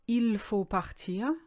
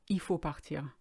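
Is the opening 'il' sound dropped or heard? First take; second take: heard; dropped. First: The opening 'il' is clearly pronounced. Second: The opening 'il' is dropped.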